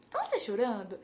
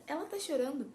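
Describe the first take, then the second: First: "Ela tá chorando?" as a spoken yes-no question; question intonation. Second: "ela tá chorando" stated as news; statement intonation. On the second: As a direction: make "ela tá chorando" a declaration, not a question. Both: Shown as a demonstration. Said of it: "Tá vendo como é entonação?".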